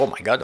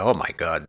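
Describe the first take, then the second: First: It sounds proud and delighted. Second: It sounds shocked and dismayed. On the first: The portfolio has grown a lot. "Et j'étais fier" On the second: The portfolio has lost a lot. "c'est le même oh my God, mais pas le même ton"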